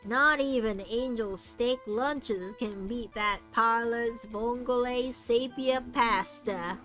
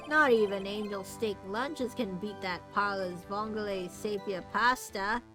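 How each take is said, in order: First: It is read in a put-on cowboy accent. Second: It is read in a plain, ordinary accent.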